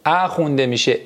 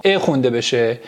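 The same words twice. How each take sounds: First: "ا" read as an open æ. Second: "ا" read as a closed e; exceptional e reading. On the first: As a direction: open up "ا" to a short a as in "cat". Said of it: "اگر ا قبل از سه حرف". («ا» با صدای اَ) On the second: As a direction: keep "ا" a plain e, not an open a. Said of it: "یه سری استثناءاتی". («ا» با صدای اِ) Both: Shown as a demonstration.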